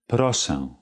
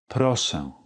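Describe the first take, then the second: Both takes have the same delivery.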